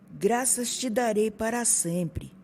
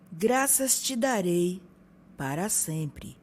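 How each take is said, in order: First: It is said at a normal, flowing pace. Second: It is said slowly with pauses between words.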